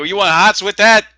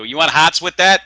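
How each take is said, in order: First: Much higher and louder Boston accent; Boston deli guy. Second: Loud, high Boston counterman voice; Boston deli guy. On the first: Shown as a demonstration. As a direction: ham up the Boston counterman on request. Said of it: "How do they say it?". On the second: Retold or imitated. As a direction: bark it like a Boston sandwich guy. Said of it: "do that again".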